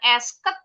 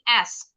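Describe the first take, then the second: First: The word has two syllables with an added vowel. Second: The word has one syllable with no added vowel. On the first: The speaker calls it wrong. "bukan esket" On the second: The speaker calls it right. "tapi S. Jadi nggak ada nih bunyi ed-nya"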